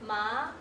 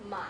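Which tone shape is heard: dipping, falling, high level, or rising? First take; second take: rising; dipping. First: The pitch rises from middle to high. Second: The pitch dips low then comes up.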